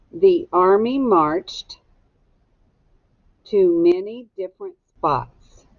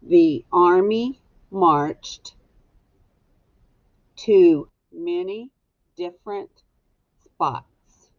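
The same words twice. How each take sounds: First: Slow, clear dictation pace. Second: Very slow, word by word dictation. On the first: Teacher dictating a sentence slowly for students to echo. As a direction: say each word slowly so students can write it. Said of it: "echo me". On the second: Teacher dictating the sentence word by word for writing. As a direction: space the words out so they can be written down. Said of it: "This goes on number one". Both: Shown as a demonstration.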